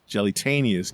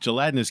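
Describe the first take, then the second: First: It is said as 'jelly-tanius'. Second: It is said the standard way, gelatinous. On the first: The speaker calls it wrong. "to Ash was Jellytanius cube" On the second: The speaker calls it right. "gelatinous cubes"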